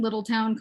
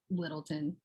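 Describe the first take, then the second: First: "Little Town" with a full "town" ending; outsiders' pronunciation. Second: "Littleton" low and soft, last syllable reduced to -tən; local pronunciation. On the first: Naming the place unlike locals, "Little Town" with full "town". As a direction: give "Little Town" two clear words, rhyming the end with down. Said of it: "called it Littleton and not Little Town". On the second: Showing how they say it, "Littleton" with a reduced ending. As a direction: drop "Littleton" quietly, ending in an unstressed "tun". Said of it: "That's how they say it too".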